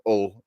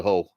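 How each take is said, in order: First: "Hull" said "ull", H dropped, Hull style; Yorkshire "Hull" as "ull"; local H-dropping. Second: "Hull" with a sounded H; careful "Hull". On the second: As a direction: say "Hull" properly, H at the start. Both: Shown as a demonstration. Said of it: "as we call it".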